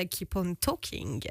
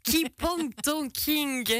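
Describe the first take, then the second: First: English song title. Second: Laughing title. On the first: Radio host announcing the track, slow English. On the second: Host laughing over her own repeat of the title. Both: Acted.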